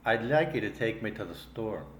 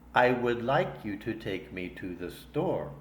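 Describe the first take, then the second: First: Words run together with a soft, reduced th. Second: Each word is said fully and separately.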